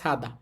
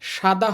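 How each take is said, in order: First: The first sound is a plain s sound. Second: The first sound is an sh sound. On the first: The speaker calls it right. "উচ্চারণটা হচ্ছে সাদা" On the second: The speaker calls it wrong. "সাদা হবে না"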